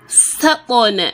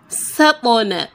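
The two takes are said the same way.

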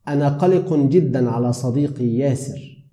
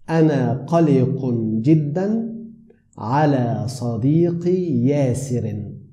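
First: It is said at normal conversational speed. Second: It is said slowly and very clearly.

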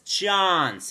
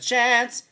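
First: The word has an old-fashioned 1950s accent. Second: The word has a neutral everyday accent. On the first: "she has that 50s accent" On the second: "instead of chance"

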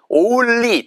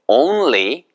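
First: The l sound is short and weak. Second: The n runs into a long clear l. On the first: The speaker calls it wrong. "다 틀린 발음이에요" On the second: The speaker calls it right. "It's on까지 하시고요. on까지 하시고 릴릴리"

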